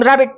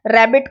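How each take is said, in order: First: रैबिट run together as one hurried, slurred unit; lazy articulation. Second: Said in the usual way. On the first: Shown as a demonstration. Teacher demonstrating lazy articulation, रैबिट said all at once. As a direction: blur the two syllables of रैबिट together. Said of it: "एकदम रैबिट बोल लेना". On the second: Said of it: "lazy articulation का मतलब है".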